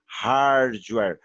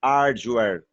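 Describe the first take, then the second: First: Hardware said with an H and a rolled-back R in hard; English pronunciation. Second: Hardware said as ard-ju-ér, no H, with a j sound; wrong Brazilian way. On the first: Teacher shows students the correct way, American hardware. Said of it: "reparem que eu puxo meio que um R aqui". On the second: Teacher shows students the pronunciation to avoid, Brazilian hardware. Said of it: "eu não falo". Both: Shown as a demonstration.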